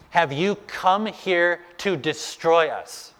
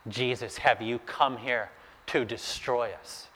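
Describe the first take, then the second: First: Slow, higher-pitched demon challenge; mock shouting. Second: Hushed, cowed demon plea; fearful. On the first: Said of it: "This unclean spirit is shouting at Jesus". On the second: Acted. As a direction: ask softly, as if in dread. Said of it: "the demon is shaking with fear".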